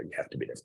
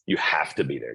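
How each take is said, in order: First: The same line again in an unvoiced whisper; a breathy, voiceless reminder; whispered repeat. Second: Said in the usual way. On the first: Shown as a demonstration. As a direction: hush it for weight. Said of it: "repeated as a whisper". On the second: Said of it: "plain then repeated whispered".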